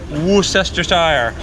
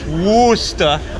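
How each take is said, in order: First: The word is said in full, ending in shire. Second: The word is cut short, with no final syllable. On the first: The speaker calls it wrong. "not Worcestershire like it looks like" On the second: The speaker calls it right. "it's Worcester"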